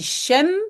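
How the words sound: It starts with a soft sh sound. This is another common form in the Netherlands. "souvent aussi shem"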